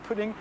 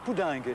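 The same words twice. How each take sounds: First: The word is said with an English pronunciation. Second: The word is said with a French-adapted pronunciation. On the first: This is the original English word. "le mot anglais pudding" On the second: This is the old borrowed pronunciation, no longer used today. "il va longtemps être prononcé pudding"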